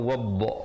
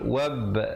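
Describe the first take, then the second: First: The final b is released with rounded lips. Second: The final b is released with flattened lips. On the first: The speaker calls it wrong. "Jangan bulatkan wab. Tak betul" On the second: The speaker calls it right. "pantulan dia pepeskan mulut"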